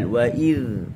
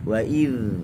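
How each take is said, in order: The two takes are said the same way.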